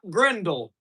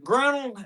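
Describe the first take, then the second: First: The word is said with a d sound. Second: The word is said without a d sound. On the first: The speaker calls it wrong. "it's not grindle" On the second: The speaker calls it right. "it's a grinnell"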